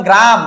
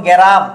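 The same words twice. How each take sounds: First: Said in the usual way. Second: গেরাম with a vowel splitting g and r, "ge-ram"; inserted middle vowel. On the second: Shown as a demonstration. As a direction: break the opening cluster of গেরাম into "ge-ra". (গ আর র-এর মাঝে স্বর দিয়ে "গেরাম") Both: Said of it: "মধ্য অংশে যুক্ত হইতো".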